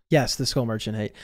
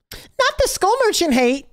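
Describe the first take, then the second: First: Low, soft, unmoved reply; deadpan confirmation. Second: Very high put-on whine; mock protest. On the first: Real, not acted. Reviewer answering protesting viewers about the hate, deadpan confirmation. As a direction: drop low and confirm it dryly. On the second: Reviewer mimicking viewers objecting to hate, mock protest. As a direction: imitate a dismayed fan in a high voice.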